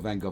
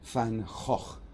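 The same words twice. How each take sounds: First: The name is pronounced with English sounds. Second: The name is pronounced with Dutch sounds. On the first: The speaker calls it wrong. "is not Van Gogh" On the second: The speaker calls it right. "it's Van Gogh. Say it properly in Dutch"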